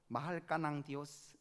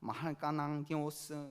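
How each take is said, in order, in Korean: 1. 평범하게 말하며, 콧소리 울림은 넣지 않습니다. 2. 콧소리가 섞인 울리는 목소리로 말합니다.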